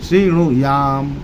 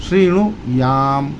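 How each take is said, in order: The two takes are said the same way.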